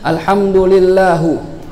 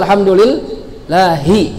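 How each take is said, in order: First: The word ends with a 'u' vowel. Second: The word ends with an 'i' vowel. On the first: The speaker calls it wrong. "harokatnya salah dari segi nahwu" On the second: The speaker calls it right. "Harusnya alhamdulillahi"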